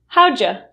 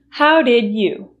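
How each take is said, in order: First: Did you is reduced to a single ja sound. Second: Did you is said as two full words. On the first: "how'ja. It's a lot easier to say" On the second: "than how did you"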